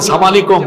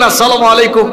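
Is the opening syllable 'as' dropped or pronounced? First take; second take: dropped; pronounced. First: The opening syllable is clipped off the greeting. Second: The full greeting is said with every syllable. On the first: It sounds like wishing death on the listener. The speaker calls it wrong. "আপনি যে বলেন সালাম আলাইকুম, সাম মানে তো মৃত্যু" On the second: It wishes peace upon the listener. The speaker calls it right. "শুদ্ধ করে বলতেন"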